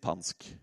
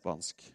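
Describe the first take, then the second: First: The word starts with p, without s. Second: The word starts with an s sound. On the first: "Vanskelig med den S-en før en konsonantlyd" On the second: "Det er spansk"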